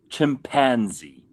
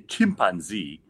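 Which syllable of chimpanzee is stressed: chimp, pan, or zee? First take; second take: pan; chimp. First: The stress is on the middle syllable. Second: The stress is on the first syllable. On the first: "They put the emphasis on that syllable" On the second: "Nigerians put the emphasis on chimp"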